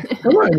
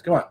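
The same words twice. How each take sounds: First: High, incredulous come on. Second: Said in the usual way. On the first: Real, not acted. To the group protesting they talked over each other, incredulous. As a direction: pitch it up in disbelief.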